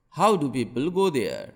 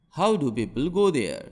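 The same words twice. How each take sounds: The two takes are said the same way.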